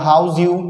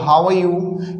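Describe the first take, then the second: First: The R sound is dropped, giving 'howz you'. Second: The R sound in 'are' is clearly pronounced.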